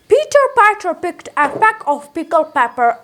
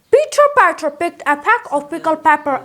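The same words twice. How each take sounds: First: It is said at a slower pace. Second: It is said at a fast pace.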